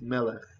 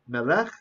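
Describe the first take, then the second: First: The stress is on the first syllable. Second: The stress is on the last syllable. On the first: The speaker calls it right. "it's melech" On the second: The speaker calls it wrong. "not melech"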